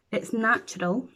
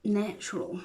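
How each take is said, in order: First: Said in the usual way. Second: Natural drawn long, softer, falling. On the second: Shown as a demonstration. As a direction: let Natural linger and fall softly. Repeats the word natural.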